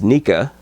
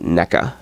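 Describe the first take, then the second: First: The first syllable does not sound like 'neck'. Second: The first syllable sounds like 'neck'. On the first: "I always think of it as Nika" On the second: "Everyone pronounces it NECA. ... it sounds like naked or necking"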